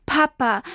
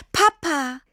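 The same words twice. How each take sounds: First: Tearful call, a little higher; calling out through tears; crying. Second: High, relieved cry of the name; joyful cry. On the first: Lost girl crying for her papa, tearful. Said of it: "weinte sie". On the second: Girl finding her father in the woods, joyful cry. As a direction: burst out in relief. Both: A narrator's reading.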